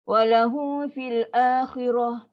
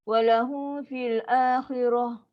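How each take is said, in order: Both takes have the same delivery.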